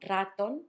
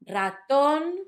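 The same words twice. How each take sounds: First: The stress is on the first syllable. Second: The stress is on the last syllable. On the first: The speaker calls it wrong. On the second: The speaker calls it right. "so you can notice that stress"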